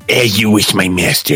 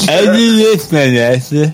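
First: It is said in a clear normal voice. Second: It is said muffled, holding the tongue.

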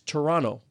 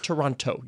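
First: The second T is dropped entirely. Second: The second T is clearly pronounced. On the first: The speaker is from the city. The speaker calls it right. "like two N's. You don't put the second T" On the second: The speaker is not from the city. The speaker calls it wrong. "it's not Toronto. You don't say the second T"

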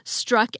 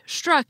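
First: It begins with a plain s sound. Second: It begins with an sh sound. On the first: "Instead of" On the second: "as if they actually began with an SH"

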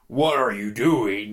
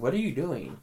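First: It sounds like an acted villain line. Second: It sounds like sincere, real confusion.

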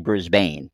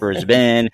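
First: The name has an American pronunciation. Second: The name has an Australian pronunciation. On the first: The speaker calls it wrong. "a lot of Americans say Brisbane" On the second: The speaker calls it right. "but we know it's Brisbane"

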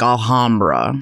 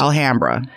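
First: The name is said with a European pronunciation. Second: The name is said with a local American pronunciation. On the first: The speaker is not from the local area. The speaker calls it wrong. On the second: The speaker is from the local area. The speaker calls it right.

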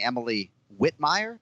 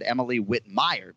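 First: The stress in Whitmire is on Whit. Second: The stress in Whitmire is on mire. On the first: The speaker calls it wrong. "Instead of saying Emily Whitmire" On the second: The speaker calls it right. "she emphasizes the mire and not the wit"

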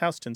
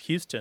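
First: The name is said the New York way. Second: The name is said like the Texan name. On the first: The speaker calls it right. "But it isn't. It's Houston Street" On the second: The speaker calls it wrong. "assume that it's pronounced Houston, as in Sam Houston"

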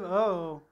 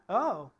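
First: It sounds like a passive-aggressive remark. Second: It sounds like a surprised exclamation.

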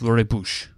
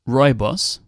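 First: The word is said with a Dutch pronunciation. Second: The word is said with an English pronunciation. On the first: "and the Dutch way is rooibos" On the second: "The English way is rooibos"

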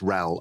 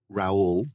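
First: The name is said short, like 'ral'. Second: The name is said the French way, like 'ra-ool'. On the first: This is how people from the north of England say it. "If they're from the north of England, it's Raoul, R-A-L" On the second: This follows the French spelling. "It should be Raoul, I guess, because it's a French spelling"

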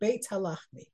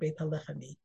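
First: The first word stands apart from the second. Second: The two words are run together as one. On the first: The speaker calls it right. "you get the first word separate and the connection on the second word" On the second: The speaker calls it wrong. "Instead of saying"

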